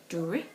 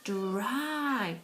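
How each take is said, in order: First: The word ends with a short 'ih' vowel sound. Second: The word ends with an 'eye' vowel sound. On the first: The speaker calls it wrong. "try it with the I pronunciation" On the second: The speaker calls it right. "The proper letter name, the Y"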